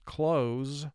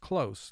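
First: The final consonant is a buzzing z sound. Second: The final consonant is a hissing s sound. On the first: It means to shut, as in close the door. "when S represents its second sound, ... the word would be pronounced close" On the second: It means near, as in a close call. "where S is representing its first sound, the word is close, like a close call"

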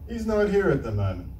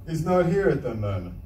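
The two takes are said the same way.

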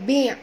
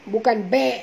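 First: The vowel is a close 'i' sound. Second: The vowel is an open 'e' sound. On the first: The speaker calls it right. "bi', bukan be'" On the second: The speaker calls it wrong.

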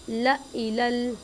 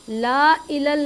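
First: The first vowel is short. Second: The first vowel is long. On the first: The speaker calls it right. "हमने क्या पढ़ना है?" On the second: The speaker calls it wrong. "ला इलल नहीं पढ़ना"

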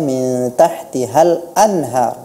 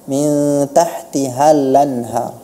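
First: A glottal stop comes before 'anhar'. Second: The l runs straight into 'anhar' without a stop. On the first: The speaker calls it right. "Seharusnya dibaca" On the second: The speaker calls it wrong.

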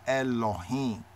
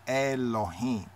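First: An 'o' vowel follows the L sound. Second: An 'o' vowel follows the L sound.

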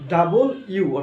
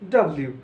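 First: The name is said as two clear words. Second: The name is squeezed into one run-together word. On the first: The speaker calls it right. "অর্থাৎ ডাবল ইউ উচ্চারণ করবো, দুইটা ইউ পাশাপাশি" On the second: The speaker calls it wrong. "ডাব্লিউ নয়"

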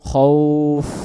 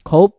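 First: The word ends with air flowing out as f. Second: The word ends with a closed p sound. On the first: The speaker calls it right. "শেষে বাতাস বেরো" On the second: The speaker calls it wrong. "এমন যদি পড়ি শেষে ফ অক্ষরটা ফা অক্ষরটা বা হয়ে যাবে"

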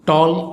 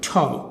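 First: The t is plain without a puff. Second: The t is strongly aspirated with a puff. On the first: The speaker calls it wrong. "Not টল at all" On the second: The speaker calls it right. "শব্দটি উচ্চারণ হবে ঠল"

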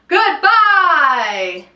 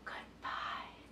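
First: It is said loudly. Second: It is said softly.

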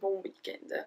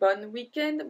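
First: The first word ends in a nasal vowel. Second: The first word ends with a clearly pronounced n. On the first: The speaker calls it right. "we say bon weekend" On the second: The speaker calls it wrong. "We don't say bon weekend"

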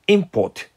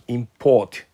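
First: The stress is on the first syllable. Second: The stress is on the second syllable. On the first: Goods brought in from abroad. "発音を前にすると" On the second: To bring goods in from abroad. "輸入するっていう動詞は"

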